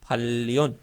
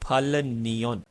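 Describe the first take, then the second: First: The second syllable starts with an l sound. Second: The second syllable starts with an n sound. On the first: The speaker calls it right. "फल नियन की बजाय इसको हम बोलेंगे फल्योन" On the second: The speaker calls it wrong. "Beginner जो है वो इसको इस तरह पढ़ेगा"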